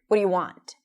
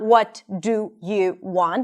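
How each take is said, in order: First: The words are reduced into one mumbled word. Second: Each word is said separately and clearly. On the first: The speaker calls it right. "it sounds just like one mumbled word" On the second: The speaker calls it wrong. "It's not"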